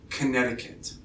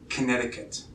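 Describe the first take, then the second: No difference in how they are said.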